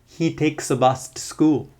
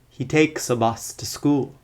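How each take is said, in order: First: 'A' and 'to' are reduced to schwa. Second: The same.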